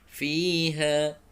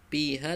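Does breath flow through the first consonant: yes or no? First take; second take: yes; no. First: The first consonant lets breath flow through continuously. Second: The first consonant is a stop with no breath flow. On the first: The speaker calls it right. "fi mengalir nafas" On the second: The speaker calls it wrong. "bukan piha"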